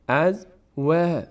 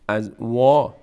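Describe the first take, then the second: First: The vowel after w sounds thin and light. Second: The vowel after w sounds full and heavy. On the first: The speaker calls it right. "پر خوانده نمیشه، یعنی دهان به سمت بالا باز نمیشه" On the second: The speaker calls it wrong. "نمیگیم از وا"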